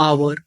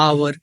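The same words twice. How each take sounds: No difference in how they are said.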